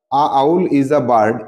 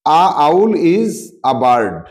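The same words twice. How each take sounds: First: Said in the usual way. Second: Slow reading of the sentence. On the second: Shown as a demonstration. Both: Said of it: "আউল উচ্চারণ কি হচ্ছে?".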